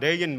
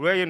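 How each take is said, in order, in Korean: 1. 이 단어는 L 소리로 시작합니다. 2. 이 단어는 입술을 둥글게 모은 R 소리로 시작합니다. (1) "레인은 그냥 레인 말하면 됩니다" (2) "우자를 만들고 레인 해보세요"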